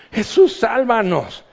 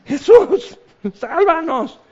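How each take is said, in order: First: Said in the usual way. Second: Much higher, loud cry for rescue; desperate scream. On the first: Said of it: "No es cristiana". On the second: Retold or imitated. Woman on the sinking boat screaming loudly to Jesus. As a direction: scream it as the waves hit. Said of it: "empiezas a gritar".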